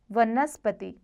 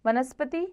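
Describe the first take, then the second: First: वनस्पति with v, ending falling; correct v sound. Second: वनस्पति starting like b, ending lifted; wrong b sound. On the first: Teacher corrects it, वनस्पति with v. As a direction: say वनस्पति as vanaspati. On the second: Teacher shows the error, वनस्पति with b. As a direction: say वनस्पति as banaspati. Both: Shown as a demonstration. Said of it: "ब व संबंधी".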